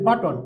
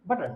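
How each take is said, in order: First: বাটন with a full vowel before N; wrong way. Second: বাটন with no vowel before the N, the N syllabic; বাটন said as but-n. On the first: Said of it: "যেমন আমরা বলি বাটন". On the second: Teacher correcting a learner, syllabic N in বাটন. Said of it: "আসলে বাটন না, হবে বাটন". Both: Shown as a demonstration.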